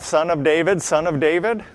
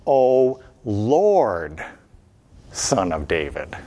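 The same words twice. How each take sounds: First: Plain. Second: Lord, Son of David sunk deep; low, pleading cry. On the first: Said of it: "Do they call out". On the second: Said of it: "What do they call out?". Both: Shown as a demonstration.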